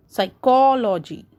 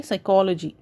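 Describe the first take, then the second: First: "psychology" with a long, stressed ko. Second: Said in the usual way. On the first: Shown as a demonstration. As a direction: stretch the second syllable of "psychology". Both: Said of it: "So ko".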